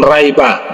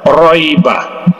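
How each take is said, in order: First: The r is light and thin. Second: The r is heavy and thick. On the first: The speaker calls it wrong. "jangan raiba ... itu salah" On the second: The speaker calls it right. "yang benar adalah kita tebalkan"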